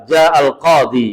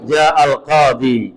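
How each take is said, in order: The two takes are said the same way.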